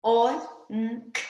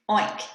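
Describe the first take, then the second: First: Oink slowly stretched, the oi sound held long; drawn-out oink. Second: Oink said short and crisp in one beat; quick oink. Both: Shown as a demonstration. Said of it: "they all make that oi sound".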